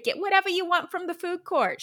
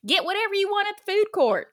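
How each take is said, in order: First: High, squeaky put-on mom voice; a silly high-pitched mom impression; mock mom voice. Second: High, fast, loud mom voice; mom's real voice. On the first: To her daughter at the mall, a high mock mom voice. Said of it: "She didn't sound like that". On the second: Retold or imitated. Mom dropping her at the mall, quick and loud. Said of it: "'cause that's how she sounded".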